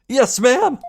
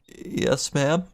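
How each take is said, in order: First: It is said loudly and firmly. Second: It is said quietly and hesitantly.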